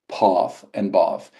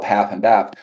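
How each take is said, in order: First: It uses the southeastern English vowel. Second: It uses the northern English vowel.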